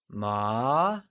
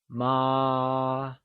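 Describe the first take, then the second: First: The pitch rises from middle to high. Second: The pitch stays high and level throughout. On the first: The word means hemp. "it is said with the mid-rising tone, or second tone" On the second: The word means mother. "it is said with a high level tone, also known as the first tone"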